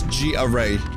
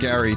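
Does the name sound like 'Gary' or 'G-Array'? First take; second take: G-Array; Gary. First: The name sounds like 'G' followed by 'array'. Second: The name sounds like the English name Gary. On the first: The speaker calls it right. "It's G-Array" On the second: The speaker calls it wrong. "I'm mispronouncing Gary, too"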